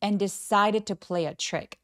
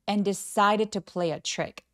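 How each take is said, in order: First: The phrase flows as one unbroken chunk. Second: The phrase flows as one unbroken chunk.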